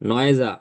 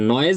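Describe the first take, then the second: First: An extra vowel is added after the final consonant. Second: The word ends cleanly on the final consonant. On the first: The speaker calls it wrong. "প্রত্যেকটা ওয়ার্ডের পরে আপনার এ আসতেছে" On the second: The speaker calls it right. "তা নয়েজ বলেন"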